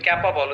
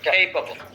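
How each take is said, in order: First: The first vowel sounds like the 'a' in cat. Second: The first vowel sounds like the 'ay' in cape. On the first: The speaker calls it wrong. "এটা আমরা বলি ক্যাপাবল, হচ্ছে এটা হচ্ছে ক্যাপাবল না" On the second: The speaker calls it right. "বলেন খেইপাবল"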